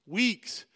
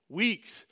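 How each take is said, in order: Both takes have the same delivery.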